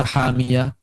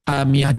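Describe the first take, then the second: First: "hamiyah" with its vowels drawn out; over-lengthened vowel. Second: Said in the usual way. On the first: Shown as a demonstration. Teacher shows what not to read, "hamiyah" too long. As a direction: overstretch "hamiyah". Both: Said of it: "jangan dibaca hamiyah".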